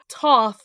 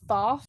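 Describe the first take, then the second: First: The name begins with a plain t sound. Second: The name begins with a th sound. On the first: The speaker calls it wrong. "I have heard people say Toth" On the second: The speaker calls it right. "I think that means it's the th sound"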